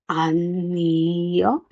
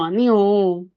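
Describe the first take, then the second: First: The word is said at a slow, careful pace. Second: The word is said at a faster, natural pace.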